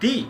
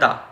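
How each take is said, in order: First: The word ends in an 'ee' vowel. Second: The word ends in an 'uh' vowel. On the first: "T H E এর উচ্চারণ দি তখনই হবে যখন কোনো একটি ওয়ার্ডের ফার্স্ট লেটার ভাওয়েল দিয়ে শুরু হবে" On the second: "অন্যদিকে আরও একটি উচ্চারণ আছে, সেটি হলো দা"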